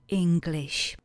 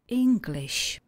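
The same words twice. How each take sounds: First: Said in the usual way. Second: "English" said clearly higher, falling at the end; higher repeat. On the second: Shown as a demonstration. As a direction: lift the pitch of "English" for the model. („English“ výš, s klesající melodií)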